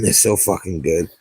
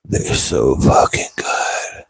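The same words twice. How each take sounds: First: Said in the usual way. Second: Hushed, slow, lower whisper; whispered praise for cheap mics. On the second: Shown as a demonstration. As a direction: breathe it like a secret.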